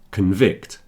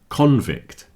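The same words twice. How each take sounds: First: The stress is on the second syllable. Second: The stress is on the first syllable. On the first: It is used as a verb. "If I put the stress on the second syllable, that con changes to kun" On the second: It is used as a noun. "But today it's a noun, so it's convict"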